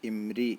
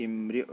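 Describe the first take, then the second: No difference in how they are said.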